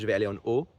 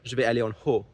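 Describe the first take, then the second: First: No h sound is heard before 'haut'. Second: An h sound is heard before 'haut'. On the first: This is how it is said in mainland France. "in France, you say ... So you don't pronounce the H" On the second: This is how the Lebanese friend says it. "she'd say"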